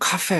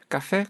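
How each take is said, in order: First: The first consonant is strongly aspirated, exaggerated. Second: The first consonant is tense and unaspirated.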